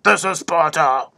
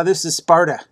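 First: Hammed-up Spartan declaration; mock film battle cry. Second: Said in the usual way. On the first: Quoting the Spartan king's line, mock-heroic delivery. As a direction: imitate the movie line, stretching the last word. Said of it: "would have been a better than".

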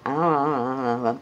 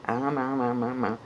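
First: Louder, committed munching; loud chewing sounds. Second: Weak chewing sounds. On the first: Puppeteer commits to the chewing after the note, munching loudly. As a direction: chomp like you mean it. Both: Shown as a demonstration. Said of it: "do it like you mean it".

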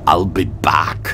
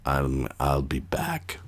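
First: Put-on breathy whispered Austrian accent. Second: Put-on Austrian accent. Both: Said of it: "It's very hard to do an Austrian accent".

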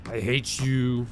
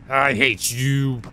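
First: Slow, softer, lower grumble; subdued resentment. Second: Very slow, stretched-out grudge; drawn-out resentment. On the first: Player repeating it to the lurking character, subdued resentment. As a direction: drag it out under your voice. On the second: Player to the lurking game character, drawn-out resentment. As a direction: draw every word out in exasperation. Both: Real, not acted.

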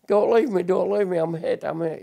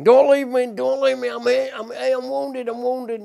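First: Echoed plea. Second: High, pleading cry of a hit soldier; wounded soldier's cry. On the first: Remembered voices at war graves. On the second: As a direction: cry out like a wounded man begging not to be left. Veteran voicing wounded comrades' cries. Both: Retold or imitated.

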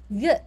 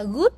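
First: "good" with an unrounded Vietnamese ư; short ư vowel. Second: "good" with a rounded oo vowel; learner's "good" with a Vietnamese u; mispronounced good. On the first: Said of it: "mà mình đọc là ư". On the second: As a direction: say "good" wrongly, with the oo of "food". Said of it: "mình không đọc là good". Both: Shown as a demonstration.

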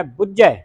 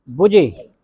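First: ਬੁੱਝੈ with held double jh and open ai; doubled consonant. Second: ਬੁਝੇ with a light single consonant and close e; soft misreading. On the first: Teacher models it for students, ਬੁੱਝੈ firm with open ending. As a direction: press on the middle of ਬੁੱਝੈ, end wide. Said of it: "ਅਧਿਕ ਲਾ ਕੇ ਉਚਾਰਨ ਕਰਨਾ ਹੈ". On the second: Teacher shows how congregations misread it, soft ਬੁਝੇ. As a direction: keep the middle of ਬੁਝੇ soft, narrow ending. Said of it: "ਪੋਲਾ ਨਹੀਂ ਪੜ੍ਹਨਾ ਇਹਨੂੰ". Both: Shown as a demonstration.

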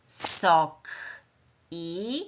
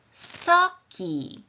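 First: "Sok", a pause, then "i" on its own; word plus separate sound. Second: "soki" joined into one word, drawn out; blended word. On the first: Teacher adding a letter to a word, "Sok" and "i" separated. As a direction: keep "Sok" and "i" apart before blending. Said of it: "dodam na końcu literkę i". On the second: Teacher revealing the new word, "soki" blended slowly. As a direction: blend "soki" together, stretching both syllables. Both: Shown as a demonstration.

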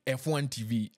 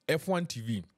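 No difference in how they are said.

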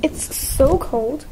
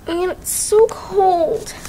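First: Drawn-out shivering words; shaky and slow from the cold. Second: Slow, shaky words from the cold; shivering. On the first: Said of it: "Like, freezing". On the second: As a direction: shiver through it. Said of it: "I'm, like, freezing". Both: Real, not acted.

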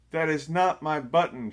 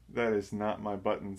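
First: Higher and louder, Toad shouting in frustration; fed-up Toad shouts at Frog. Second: Said in the usual way. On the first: A narrator's reading. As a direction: punch it out loud and high. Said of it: "shouted Toad". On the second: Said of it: "said Toad".

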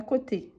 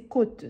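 First: "côté" in two syllables, ending on é; "côté" with a clearly voiced last vowel; côté with accent aigu. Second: "côte" as one syllable, final e unsounded; côte, not côté. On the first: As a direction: sound the final é in "côté". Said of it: "Côté, il y a un accent aigu". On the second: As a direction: say "côte" ending on the t sound. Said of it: "ce n'est pas côté". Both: Shown as a demonstration.

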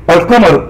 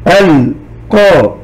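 First: Said in the usual way. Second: "القمر" very slowly as "ال - قا - ما - رو"; syllable by syllable. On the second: Shown as a demonstration. Teacher breaking the word into sound units, "القمر" as "ال - قا - ما - رو". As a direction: sound out "القمر" in four separate beats. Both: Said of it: "ثم أحللها إلى مقاطع وحروف".

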